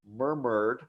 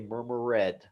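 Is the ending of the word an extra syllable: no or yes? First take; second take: no; yes. First: The ending is a plain d sound. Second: The ending is sounded as an extra syllable. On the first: The speaker calls it right. "We'll have a word like murmured" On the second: The speaker calls it wrong. "a lot of students will say"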